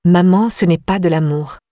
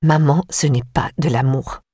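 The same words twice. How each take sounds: First: Curt retort to her sister. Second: Suddenly curt. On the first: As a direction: snap the line back firmly. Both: A narrator's reading. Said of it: "soudain cassante".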